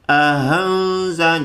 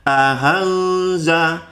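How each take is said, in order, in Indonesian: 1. Hamzah kedua dilunakkan seperti h yang ringan. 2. Hamzah kedua dilunakkan seperti h yang ringan.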